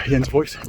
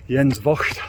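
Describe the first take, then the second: First: Jens Voigt said the English way, hard J; British pronunciation. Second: Jens Voigt said the German way, J like Y; German pronunciation. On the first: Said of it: "us Brits can pronounce him". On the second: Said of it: "although I think us Brits can pronounce him Jens Voigt". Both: Shown as a demonstration.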